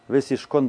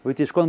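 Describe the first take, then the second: First: The word is said with an s sound. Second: The word is said with a t sound. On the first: "это саф или таф... по-шканский считается как саф" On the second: "все время будет таф"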